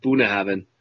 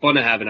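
First: Bunnahabhain with first syllable BOON, an "oo" sound; speaker's habitual pronunciation. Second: Bunnahabhain with first syllable BUN, as in "bun"; rep's pronunciation. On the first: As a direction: say Bunnahabhain starting BOO-na, not BUN-na. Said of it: "I've always called it". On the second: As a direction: say Bunnahabhain starting with a short "uh": BUN-na. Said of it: "he calls it Bunnahabhain". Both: Shown as a demonstration.

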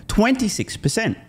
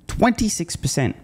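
First: "twenty-six" hit high and slow, falling hard; high, slow stress on "twenty-six". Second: "Twenty-six" again high and slow, dropping away; stress on twenty-six. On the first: Correcting a figure for viewers, slow and high on "twenty-six". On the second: Repeating the figure to viewers, slow high stress on "Twenty-six". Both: Real, not acted.

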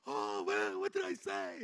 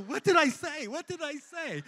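First: Dazed wondering. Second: Higher, louder, retold frantic disbelief; frantic asking. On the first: Retold or imitated. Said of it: "I go". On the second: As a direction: ask it again and again, shaken and stunned. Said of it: "And I'm going".

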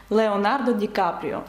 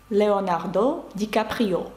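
First: Said in the usual way. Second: "Леонардо Ді Капріо" slower, French R, final syllables stressed; slow "Леонардо Ді Капріо" into French, stressing -do and -o; French pronunciation. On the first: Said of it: "актора американського". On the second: Shown as a demonstration. Teacher showing the actor's name in French, slow, end-stressed. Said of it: "Французькою це звучить як".

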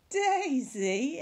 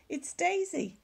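First: Amused disbelief. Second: Said in the usual way. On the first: Acted. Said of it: "everyone laughed".

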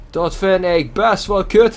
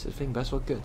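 First: Higher, louder and slow, punching "kut"; emphatic repeat. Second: Said in the usual way. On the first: Shown as a demonstration. Gamer repeating his complaint to viewers, slow, with the stress on "kut". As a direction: say it again slowly and lean hard on "kut".

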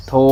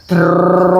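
First: โทร read as one syllable "tho", silent ร; correct reading. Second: โท ร split in two, the ร sounded separately after a pause; wrong reading. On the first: Father teaching his child to read a word: โทร as "tho", ร silent. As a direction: say โทร as a single syllable with no ร sound. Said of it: "เขาไม่ออกเสียง". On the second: Father showing his child the wrong way: โท ร split apart. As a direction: read โท then add ร as its own syllable. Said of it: "ไม่ใช่อ่านว่า". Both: Shown as a demonstration.

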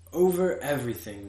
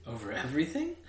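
First: "Over everything" as a plain falling answer; simple statement. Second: "Over everything" rising to a question; questioning echo. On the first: King answering "Over everything", simply stated. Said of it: "answered with great simplicity". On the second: Prince echoing "Over everything", questioning. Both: A narrator's reading.

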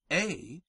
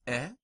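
First: A said as a long "ay"; drawn-out "ay" for A; long Latin E. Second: E said as a short "eh"; short Latin E. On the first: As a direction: say A like English long A, held. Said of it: "Latin long E is pronounced like our long A". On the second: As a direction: say E as a brief eh. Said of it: "The short vowels are as follows". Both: Shown as a demonstration.

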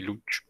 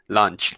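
First: "lunch" said without its N, as "luch"; misspelt lunch. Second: Said in the usual way. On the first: Shown as a demonstration. Teacher reads out his own typo, "lunch" mispronounced as "luch". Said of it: "me quedó mal escrito lunch". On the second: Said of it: "listo, con N".

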